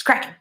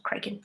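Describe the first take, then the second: First: "Kraken" with a short A, as CRACK-en; corrected Kraken pronunciation. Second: "Kraken" with a long A, as CRAY-ken; mispronounced Kraken. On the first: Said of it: "it's Kraken". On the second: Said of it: "It's not Kraken". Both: Shown as a demonstration.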